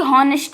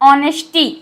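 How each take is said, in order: First: The word starts with an h sound. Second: The word starts without an h sound. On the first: The speaker calls it wrong. "ना कि हॉनेस्टी" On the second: The speaker calls it right. "एच silent ऑनेस्टी"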